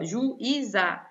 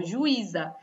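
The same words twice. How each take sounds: First: "juíza" split as ju, í-za; separated syllables. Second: Said in the usual way. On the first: Shown as a demonstration. Teacher showing the accented I alone, separated syllables. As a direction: pause after "ju" in "juíza". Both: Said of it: "separei a sílaba".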